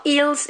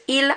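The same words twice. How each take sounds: First: "ils" pitched up, with a Z or S on the end; "ils" said wrongly as "eels"; wrongly sounded S. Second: "il" ending cleanly on L; "il" with no plural S heard; silent final S. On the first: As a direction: mistakenly pronounce the S in "ils". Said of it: "It's not". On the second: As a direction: say "il" as "eel", no S. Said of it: "you don't pronounce them". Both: Shown as a demonstration.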